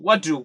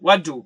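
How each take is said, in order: First: The two words are joined together. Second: The two words are joined together.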